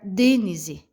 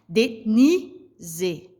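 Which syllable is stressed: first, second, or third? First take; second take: first; second. First: The stress is on the first syllable. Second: The stress is on the second syllable. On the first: The speaker calls it wrong. "Se eu fosse pronunciar o D mais forte" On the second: The speaker calls it right. "esse ni, ele se pronuncia mais forte"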